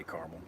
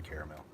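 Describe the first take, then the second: First: "caramel" said in two syllables, as CAR-mul; her own way of saying it. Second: "caramel" said in three syllables, as CARE-uh-mel; how other people say it. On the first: Settling the caramel debate, saying her version: CAR-mul in two syllables. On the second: Contrasting what a lot of people say: CARE-uh-mel in three syllables. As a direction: stretch "caramel" out to CARE-uh-mel, with an air sound. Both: Shown as a demonstration. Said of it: "is it caramel or caramel".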